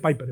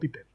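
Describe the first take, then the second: First: The name is pronounced with English sounds. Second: The name is pronounced with Spanish sounds. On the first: "Se dice Piper, ¿verdad? Bien dicho" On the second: "Yo lo digo en español, digo Piper"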